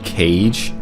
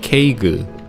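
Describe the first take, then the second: First: It is one syllable, like English 'cage'. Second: It is two syllables, ending in a stressed 'gu'. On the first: This is how English-speaking players say it. The speaker calls it wrong. "English players call it cage" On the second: This is how Korean players say it. The speaker calls it right. "in Korean pronoun pronunciation, it's called Keigu"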